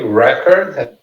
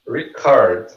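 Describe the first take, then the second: First: The stress is on the first syllable. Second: The stress is on the second syllable. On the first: It is the noun meaning a best-ever achievement. "repare que o re é a sílaba mais forte" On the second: It is the verb meaning to capture sound or video. "O co é a sílaba mais forte. Isso aqui é o verbo gravar"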